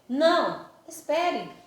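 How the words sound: There is a short pause after 'não'.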